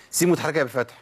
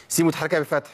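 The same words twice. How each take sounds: The two takes are said the same way.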